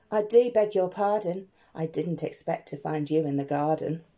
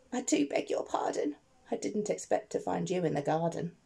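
First: Said in the usual way. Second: A hushed, sheepish sorry in a quiet voice; soft apology. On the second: Acted. Digger quietly begs the miner's pardon, soft. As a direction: apologise softly, almost under the breath.

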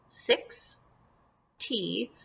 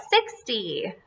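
First: "Six. T." softly as SIX, long pause, TEE; syllables apart. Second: Said in the usual way. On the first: Shown as a demonstration. Teacher shows pupils the pieces, "Six. T." split in two. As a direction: leave a wide gap between "Six" and "T". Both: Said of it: "put them together".

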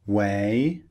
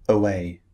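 First: "Way" as one syllable, rising tune; without schwa. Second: "away" starting on weak "uh", falling tune; with added schwa. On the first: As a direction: model "Way" with no "uh" before the w. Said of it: "words that don't contain the sound". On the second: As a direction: model "away" with a short "uh" before the w. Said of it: "have an extra sound". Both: Shown as a demonstration.

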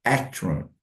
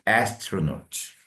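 First: Said in the usual way. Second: Astronaut stretched very slowly with the S drawn out; slow demo. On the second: Shown as a demonstration. Teacher slowly modeling astronaut. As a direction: drag out the S in astronaut. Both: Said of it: "S, S".

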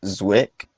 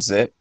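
First: Zwick, with a W after the Z; alternative name pronunciation. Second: Zick, with no W after the Z; tentative name pronunciation. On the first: Host offering a second try at the director's name, alternative pronunciation Zwick. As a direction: say Zwick as one syllable, gliding Z into W. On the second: Host guessing at the director's last name, tentative pronunciation Zick. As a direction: say Zick as one syllable, Z straight into short i. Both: Real, not acted. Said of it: "if I'm mispronouncing your".

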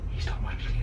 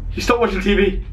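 First: Whispered, no voice at all. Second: Said in the usual way. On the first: Real, not acted. Streamer hiding from the neighbour, whispering. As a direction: breathe "He stopped watching T V" in a hushed whisper. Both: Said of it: "repeated as a whisper".

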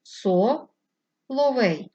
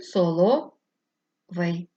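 First: "со-ловей" with a clear break after "со", very slow; syllable split. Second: "соловей" very slow, with the break after "солов"; syllable split. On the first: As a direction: pause after "со", then "ловей" slowly. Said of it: "Перший спосіб —". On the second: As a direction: stretch "соловей" with its split late in the word. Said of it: "другий спосіб —". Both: Shown as a demonstration.

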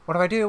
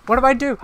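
First: Said in the usual way. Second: High, loud panicked question. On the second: Real, not acted. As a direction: blurt it in panic. Last of repeated panicked questions.

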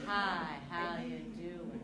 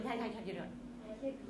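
First: Slow, low how you doing; slow pace demo. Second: Said in the usual way. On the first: Shown as a demonstration. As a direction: drag the greeting out. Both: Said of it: "The pace of our voice".

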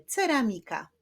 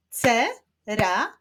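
First: Said in the usual way. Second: "Ce-ra-mi-ka" in four spaced beats; syllable by syllable. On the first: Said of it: "Wyklaszczmy sylaby w wyrazie ceramika". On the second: Shown as a demonstration. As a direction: break Ce-ra-mi-ka apart for clapping. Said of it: "Wyklaszczmy sylaby w wyrazie".

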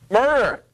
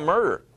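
First: Acted mild yell of "murder!"; mock scream of murder. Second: Said in the usual way. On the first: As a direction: shout murder! in a startled cry. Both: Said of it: "They screamed out".

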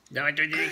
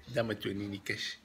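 First: Put-on louder, higher baby-talk voice to his daughter. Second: Said in the usual way. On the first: Dad coaxing his baby daughter, in high baby talk.

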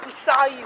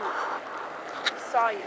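First: Said in the usual way. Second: Slow, soft whisper to a schoolmate; creepy whisper. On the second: Pretend. Teasing Charlie from school in a slow creepy whisper. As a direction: breathe it out slowly, eerie.

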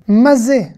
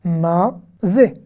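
First: Said in the usual way. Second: "mazé" slowly as ma, then zé; syllable by syllable. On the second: Shown as a demonstration. Teacher breaking down a Hebrew question, syllable by syllable. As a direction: separate both syllables of "mazé". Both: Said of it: "on va faire consonne plus voyelle".

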